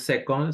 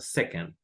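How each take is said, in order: First: The second syllable has a full, clear vowel. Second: The second syllable has a weak, barely sounded vowel. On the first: The speaker calls it wrong. "No es second" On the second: The speaker calls it right. "esta segunda sílaba es como una E muy, muy poco pronunciada"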